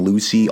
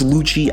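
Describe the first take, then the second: First: The middle consonant is an 's' sound. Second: The middle consonant is a 'ch' sound. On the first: The speaker calls it wrong. "I've always called him Lucy" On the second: The speaker calls it right. "it's Lucci, I guess"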